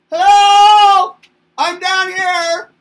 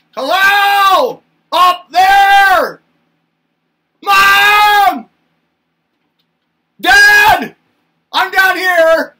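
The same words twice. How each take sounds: First: Put-on high, loud little-kid call; a small kid yelling up at the tall people, high and loud; shouting up. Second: Put-on high, loud little-kid shout upward; a toddler calling up to mom and dad, high and loud. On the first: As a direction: shout up from way down below. Toddler calling up again. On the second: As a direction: yell up to the giants from the floor. Toddler calling up to tall parents.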